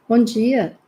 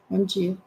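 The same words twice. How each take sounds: First: It sounds warm and cheerful. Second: It sounds grumpy and forced.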